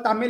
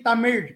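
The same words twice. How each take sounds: First: The word ends with a plain L sound. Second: The word ends with a retroflex L sound. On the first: This is the common everyday pronunciation. The speaker calls it wrong. "what we call Tamil" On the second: This is the native Tamil pronunciation. The speaker calls it right. "it's actually Tamil with the third L"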